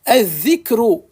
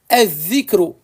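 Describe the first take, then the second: Both takes have the same delivery.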